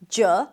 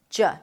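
First: The vowel is a full 'oo' as in cook. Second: The vowel is reduced to a weak schwa. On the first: "then the U, as in cook, look, and book" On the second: "a lot of people drop the first vowel to a schwa"

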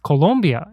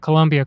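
First: The second syllable has an 'o' vowel, like lom. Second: The second syllable has a 'u' vowel, like Columbia. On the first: The speaker calls it right. "they're like, it's Colombia" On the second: The speaker calls it wrong. "It took me a long time to realize that Colombia didn't have a U in it. And so my accent was terrible"

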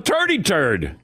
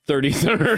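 First: The 'th' sounds are said as plain 't'. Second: The 'th' sounds are said as 'th'. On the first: "he just said turd. No, turdy turd" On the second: "I don't do turdy turd"

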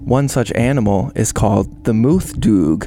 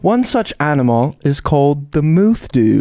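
First: It is said in his normal accent. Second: It is said in a British accent.

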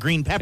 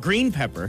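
First: The stress falls on the word pepper. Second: The stress falls on the word green. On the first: "Instead of green pepper" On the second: "puts the emphasis on green, not pepper"

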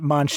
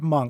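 First: The name ends with a ch sound. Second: The name ends with a k sound. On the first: The speaker calls it wrong. "I always pronounced it Munch too" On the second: The speaker calls it right. "it's actually Edvard Munch"

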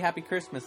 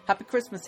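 First: It is said in the speaker's normal accent. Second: It is said in a put-on British accent. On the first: It is a plain holiday greeting. "I don't say it in my normal" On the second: It makes a reference to Harry Potter. "I add the accent and I go"

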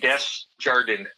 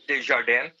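First: The name is said with English pronunciation. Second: The name is said with French pronunciation. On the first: "Pretend it's not French, like the bank, and just say" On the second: "actually would be French and French Canadian"

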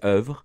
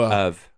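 First: It is said with French vowels and final R. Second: It sounds like English 'of' with no R. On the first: "the French way is oeuvre" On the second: "if you want to emulate that in like English phonetics, it's like you would just say of and make it a silent R"

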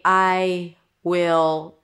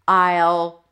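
First: Both words are said fully and separately. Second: The two words are joined into one short syllable. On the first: "whether you say, I will, taking your time here" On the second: "or I'll"

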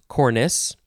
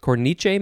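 First: It is said with an English pronunciation. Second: It is said with an Italian pronunciation.

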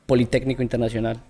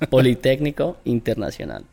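First: The name is said at normal speed. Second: The name is said slowly.

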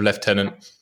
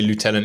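First: The word has a British pronunciation. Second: The word has an American pronunciation. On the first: It is the traditional English usage. "instead of" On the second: It copies usage heard in American films. "thanks to like American films and things, you'd be surprised the amount of English people say lieutenant"

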